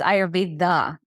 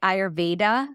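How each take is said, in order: First: The d is soft, like the 'th' in 'the'. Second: The d is a hard English d. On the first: This is how it is said in India. "It's Ayurveda, like you're saying the" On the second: This is how it is said in the West. "in the West, we say Ayurveda"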